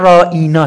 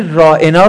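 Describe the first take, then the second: First: The twisted form رائینا, long vowel; mocking ra'ina. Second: رائنا with a short plain ending; رائنا, clipped and ordinary; the correct form رائنا, said plainly; ra'ena said as written. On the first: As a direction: stretch رائینا into ra-ee-na. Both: Shown as a demonstration.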